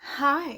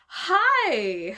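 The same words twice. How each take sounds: First: It is said in a calmer way. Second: It is said in a very peppy way.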